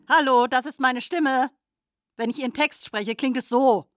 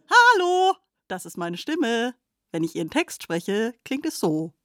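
First: It is said in an angry tone. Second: It is said in a happy tone.

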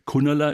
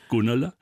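First: The first consonant is hard, like a K. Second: The first consonant is soft, like a G. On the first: The speaker calls it wrong. "vermutlich falsch ausgesprochen" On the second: The speaker calls it right. "fränkisch auf jeden Fall deutlich weicher"

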